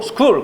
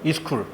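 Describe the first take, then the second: First: The word starts directly with the s sound. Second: An extra i vowel comes before the s.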